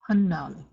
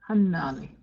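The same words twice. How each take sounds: First: The stress is on the first syllable. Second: The stress is on the second syllable. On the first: It means the number six. "more emphasis on that first syllable" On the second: It means a leg. "with the emphasis on the N A"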